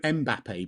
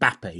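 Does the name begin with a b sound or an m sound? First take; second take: m sound; b sound. First: The name starts with an m sound. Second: The name starts with a b sound. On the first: The speaker calls it wrong. "I call him Mbappe, but that's not how you say it" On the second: The speaker calls it right. "It's just Bappe"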